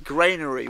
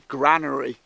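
First: It is said with an American accent. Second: It is said with a British accent.

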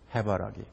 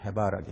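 First: The stress is on the first syllable. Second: The stress is on the second syllable. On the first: "이 1번에는 맨 앞에 그 말하자면은 그 악센트가 있습니다. 강하게 발음하는 거죠" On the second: "두 번째 음절인 바에 있거든요"

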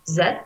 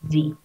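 First: The letter is said with British pronunciation. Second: The letter is said with American pronunciation. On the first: "British pronunciation" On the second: "American pronunciation"

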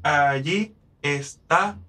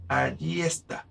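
First: The two meeting vowels are in separate syllables. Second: The two meeting vowels merge into one syllable. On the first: "en vez de decir allí está" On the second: "con esta unión de las 2 vocales, se forma una SINALEFA"

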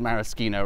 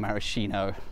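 First: The middle consonant is a hard k sound. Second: The middle consonant is a soft sh sound. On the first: The speaker calls it right. "I'm convinced is maraschino" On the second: The speaker calls it wrong. "rather than maraschino"

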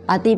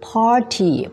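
First: It is said as a Thai loanword. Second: It is said with English pronunciation. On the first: The speaker calls it wrong. "ไม่ใช่ปาร์ตี้นะคะปาร์ตี้เป็นภาษาไทยนะ" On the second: The speaker calls it right. "แต่ว่า party"

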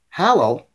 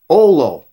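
First: The word starts with an H sound. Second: The word starts with no H sound. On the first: The speaker calls it wrong. "Hallow is not their names" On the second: The speaker calls it right. "Olo is their names"

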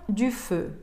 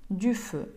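No difference in how they are said.

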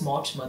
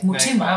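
First: The first syllable sounds like 'more'. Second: The first syllable sounds like 'moo'. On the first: The speaker calls it right. "when I say it's Mortimer" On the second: The speaker calls it wrong. "they're like, Mutima"

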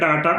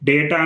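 First: The first vowel sounds like 'ah'. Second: The first vowel sounds like 'ay'. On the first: "లేదా డాటా అనొచ్చు" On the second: "డేటా అనొచ్చు"

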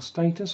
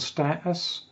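First: The word is said in a non-American accent. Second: The word is said in an American accent. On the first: The speaker calls it right. "thermal status, I should say" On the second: The speaker calls it wrong. "I was just slipping into an American accent there"

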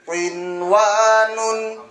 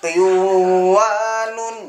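First: The nun sound is pronounced clearly before w. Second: The nun sound merges into the following w. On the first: The speaker calls it right. "Bacanya tetap jelas" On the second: The speaker calls it wrong. "Ini enggak bisa dibaca qinwanun, enggak boleh"

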